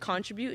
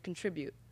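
First: It uses a non-American pronunciation of the word. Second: It uses the American pronunciation of the word. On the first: "I say contribute" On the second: "I think Americans say contribute"

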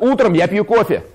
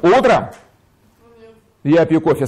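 First: It runs to the end without a pause. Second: It is said with pauses inside the phrase.

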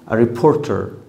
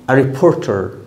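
No difference in how they are said.

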